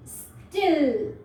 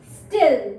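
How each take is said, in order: First: still drawn out slowly, short i held; slow demo word. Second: Said in the usual way. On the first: Shown as a demonstration. Teacher showing kids the word, slowly drawn out. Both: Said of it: "अगर हम इस word को ऐसे पढ़ें".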